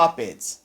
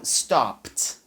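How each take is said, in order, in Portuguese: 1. O final é uma sílaba extra 'id'. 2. O final é um som curto de T. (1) "Você provavelmente já falou. Tá? É muito comum" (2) "o E D ele vai ter um som de T"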